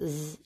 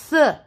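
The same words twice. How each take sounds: First: Z as a buzzing th, as in weather; Z said as a voiced th; voiced TH sound. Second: TH as a breath only, as in mouth; TH without voice, tongue between the teeth; unvoiced TH sound. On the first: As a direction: hum through Z, tongue between the teeth. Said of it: "like in weather". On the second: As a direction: hold TH as a voiceless hiss of air. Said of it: "like in mouth". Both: Shown as a demonstration.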